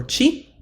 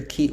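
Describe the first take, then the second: First: Second "chi" said chee; soft ch in "chi", as in cheese; soft ch sound. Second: First "chi" said kee; hard k in "chi", like key; hard k sound. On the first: Teacher giving the other plural option, "chi" said chee. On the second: Teacher giving one plural option, "chi" said kee. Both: Shown as a demonstration. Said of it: "can be either chi or chi".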